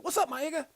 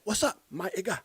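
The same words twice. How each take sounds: First: Much higher-pitched movie greeting; high-voiced comic impersonation; Chris Tucker. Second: Lightly imitated action star, higher-pitched; a hint of movie-star impersonation; Jackie Chan. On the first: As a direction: imitate a high, excitable comedian's greeting. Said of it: "remember when Chris Tucker". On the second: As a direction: mimic the film star copying his buddy's greeting. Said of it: "And then Jackie said".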